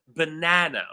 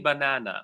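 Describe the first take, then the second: First: The second syllable is stressed. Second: The second syllable is not stressed. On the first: The speaker calls it right. "the second syllable is louder, it's longer" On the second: The speaker calls it wrong. "we never say banana"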